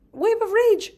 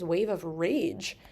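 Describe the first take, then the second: First: High, loud mock-furious voice; hammed-up burst of rage. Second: Said in the usual way. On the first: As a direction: act out rage surging up, pitched way high. Acts out sudden wave of rage.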